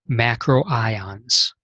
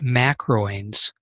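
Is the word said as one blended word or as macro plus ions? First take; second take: macro plus ions; blended. First: It is said as macro followed by ions. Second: It is blended together as one run-on word. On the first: The speaker calls it right. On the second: The speaker calls it wrong. "This word is not pronounced"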